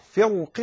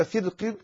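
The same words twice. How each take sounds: First: First "فرق" with a heavy, full ra. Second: Second "فرق" with a light, thin ra. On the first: Teacher offering one permitted reading, "فرق" with heavy ra. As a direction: thicken the ر in "فرق". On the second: Teacher offering the other permitted reading, "فرق" with light ra. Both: Shown as a demonstration. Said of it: "كلاهما جائز".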